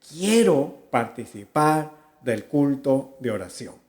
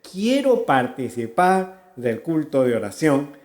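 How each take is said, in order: The two takes are said the same way.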